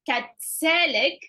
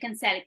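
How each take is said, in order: First: The word is said with a T sound. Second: The word is said without a T sound.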